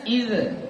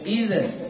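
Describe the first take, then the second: The two takes are said the same way.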